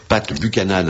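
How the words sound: The name is said with French pronunciation. "à la française"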